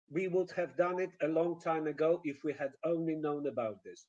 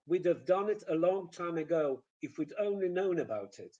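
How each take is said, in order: First: "We would have done it" with every word full; no contractions, evenly weighted "if we had only known"; stilted, stretched "We would have done it a long time ago"; stretched Polish rhythm. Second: "We'd have done it" with "have" reduced and linked; contracted "we'd", stress only on content words; flowing "We'd have done it a long time ago"; weak forms. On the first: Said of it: "And the Polish way". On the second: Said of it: "Weak form". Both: Shown as a demonstration.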